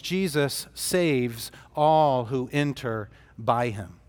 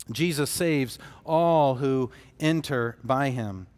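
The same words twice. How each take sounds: First: Slow, with stress on "all" in "Jesus saves all who enter by him"; slow, weighted statement. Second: Said in the usual way. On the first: Shown as a demonstration. Preacher stating his key point to the congregation, slow and weighted. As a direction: lean on "all" and let the line land slowly, the last word falling away. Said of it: "first and foremost".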